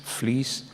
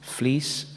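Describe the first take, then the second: No difference in how they are said.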